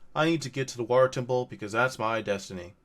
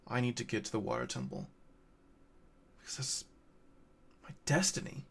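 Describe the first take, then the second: First: It is delivered flatly, like reading a script. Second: It is delivered with emotion and impact.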